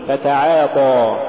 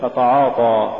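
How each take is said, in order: First: فتعاطى with thin a vowels until the heavy T; light alif. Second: فتعاطى with dark, back a vowels throughout; heavy alif error. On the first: Tajweed teacher giving the form to say, light alif. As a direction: keep the aa after ayn in فتعاطى light. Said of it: "قل". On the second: Tajweed teacher showing what not to say, heavy alif. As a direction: thicken the aa after ayn in فتعاطى. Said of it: "ولا تقل". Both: Shown as a demonstration.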